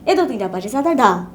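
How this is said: The final syllable drops low in pitch. The speaker calls it right. "धा नीचे आना चाहिए"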